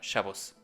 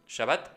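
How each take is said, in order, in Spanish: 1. La palabra termina en una o redondeada y s. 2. La palabra termina en una a abierta y t. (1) "cuya pronunciación en yiddish europea del este de esta raíz hebrea es Shabbos" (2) "en hebreo moderno por su pronunciación española"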